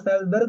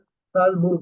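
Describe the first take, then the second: First: The last syllable has an 'er' vowel, berg. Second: The last syllable has an 'oo' vowel, burg. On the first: It would name some other city. The speaker calls it wrong. "साल्जबर्ग बोलोगे तो वो कहीं किसी और शहर उसका होगा" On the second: It names the intended city. The speaker calls it right. "वो बोलेगा साल्जबुर्ग"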